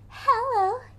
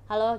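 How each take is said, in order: First: It is said in a soft, sweet, girly voice. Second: It is said in an ordinary everyday voice. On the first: "ini kalau Barbie tuh hello gitu" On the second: "Kalau halo kan kita bisa halo gitu"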